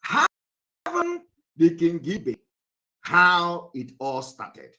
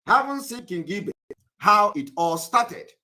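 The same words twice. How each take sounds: First: Slow, drawn-out question. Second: Said in the usual way. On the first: Real, not acted. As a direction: stretch each word out for the class. Lecturer repeating question.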